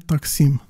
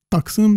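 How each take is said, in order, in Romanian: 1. A doua vocală este un sunet anterior i. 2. A doua vocală este un sunet central î. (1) "devine taksim" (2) "în limbile slavilor din sud nu există î"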